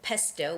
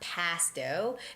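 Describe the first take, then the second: First: The first vowel is a short 'e' sound. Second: The first vowel is an 'a' sound. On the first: The speaker calls it right. "pesto with a short vowel" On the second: The speaker calls it wrong. "not pasto"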